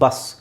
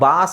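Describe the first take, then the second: First: The vowel is kept short. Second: The vowel is drawn out long. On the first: The speaker calls it right. "So it's ಬಸ್" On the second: The speaker calls it wrong. "ನೀವು ಇಲ್ಲಿ ದೀರ್ಘ ಹೇಳಿದರೆ ಬಾಸ್ ಆಗಿಬಿಡುತ್ತೆ"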